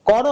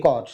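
First: "কর" as two syllables "ko-ro"; vowel ending. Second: "কর" as one syllable "kor"; consonant ending. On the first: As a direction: sound a final o in "কর". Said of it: "হসন্ত না দিলে". (শেষে ও দিয়ে "করো") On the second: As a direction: stop on র in "কর". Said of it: "হসন্ত দেই তাহলে কর". (হসন্ত দিয়ে "কর") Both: Shown as a demonstration.

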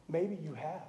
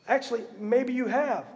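First: Much softer, almost to oneself; a quiet admission; soft aside. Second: Actually leaning on have, at full voice; a plain firm confirmation; firm restatement. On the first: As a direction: drop the voice on maybe you have. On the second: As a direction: say it again with conviction. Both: Shown as a demonstration.

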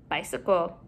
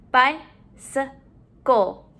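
First: Said in the usual way. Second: "Bicycle" slowly, in three beats; syllable by syllable. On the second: Shown as a demonstration. Teacher modeling syllables to put together, broken up. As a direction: pause between each syllable of "Bicycle". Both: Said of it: "let's put our syllables together".

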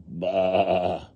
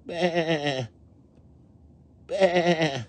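First: Drawn-out "baa" at speaking pitch; mother sheep bleat. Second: High, tremulous little bleats; lambs bleating. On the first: Mother sheep answering her lambs, unraised long bleat. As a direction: bleat like a grown sheep, not a lamb. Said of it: "Mother sheep saying". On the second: Hear those lambs, high quavering bleats. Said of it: "Hear those lambs". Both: A narrator's reading.

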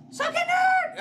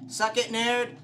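First: Very high, loud shriek; screamed taunt. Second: Loud, higher-pitched jeer; taunting shout. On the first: Player taunts game monster, screaming. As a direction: scream the jeer at full pitch. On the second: Player taunts game monster, shouting. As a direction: throw it at him as a taunt. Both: Real, not acted.

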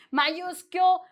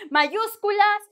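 First: "Mayúscule" with the ending cut to "kyool"; joking mispronunciation. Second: Said in the usual way. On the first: Shown as a demonstration. Teacher joking about mayúsculas, playful mispronunciation "Mayúscule". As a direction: playfully say "Mayúscule", dropping the final Spanish "-las". Joke form against the Spanish word.

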